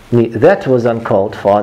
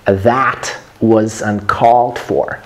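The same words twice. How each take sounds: First: "That was uncalled for" run together with small mouth movement; "That was uncalled for" said evenly and undersized; wrong pronunciation demo. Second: "that was uncalled for" slowly, with big open vowels; "that was uncalled for" slow and fully articulated; wide-mouthed careful demo. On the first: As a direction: mumble through "That was uncalled for" without opening the vowels. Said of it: "That's wrong". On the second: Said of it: "making sure that the amplitude". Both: Shown as a demonstration.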